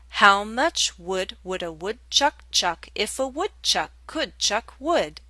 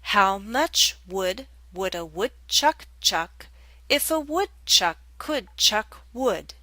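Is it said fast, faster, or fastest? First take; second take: faster; fast. First: It is said faster than the previous pace. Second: It is said at a fairly fast pace.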